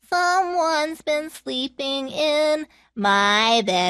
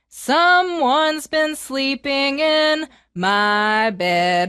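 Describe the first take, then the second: First: It is said in a Baby Bear voice. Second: It is said in a Papa Bear voice.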